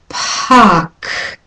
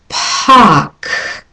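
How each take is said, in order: First: The p and k have a strong puff of air. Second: The p and k have a strong puff of air.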